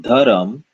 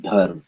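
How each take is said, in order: First: Dharam said dha-ra-m with an extra vowel; wrong dharam. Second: Dharm said as one syllable, breathy dh; correct dharm. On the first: Teacher shows the wrong dharam. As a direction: say dharam in three beats. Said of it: "but dharm". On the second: Teacher gives the right dharm. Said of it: "Not dharam". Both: Shown as a demonstration.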